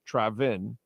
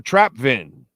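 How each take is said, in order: First: No P sound is heard before the V. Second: A P sound is heard before the V. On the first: The speaker calls it right. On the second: The speaker calls it wrong.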